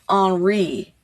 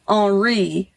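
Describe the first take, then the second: First: The name is pronounced the French way. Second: The name is pronounced the French way.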